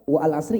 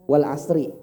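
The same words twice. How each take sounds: First: The alif after 'wa' is pronounced. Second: The alif after 'wa' is silent. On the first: The speaker calls it wrong. "nggak ada orang baca wal asri" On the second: The speaker calls it right.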